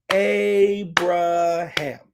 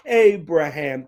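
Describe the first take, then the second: First: Abraham split syllable by syllable, very slow; broken down slowly. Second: Said in the usual way. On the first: Shown as a demonstration. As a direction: sound out Abraham for kids. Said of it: "let's break it down like this". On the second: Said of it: "Can you say that with me?".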